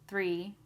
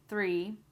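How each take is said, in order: First: The th sound is quick and light. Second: The th sound is quick and light.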